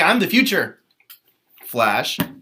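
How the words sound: It is said with a pause before Flash.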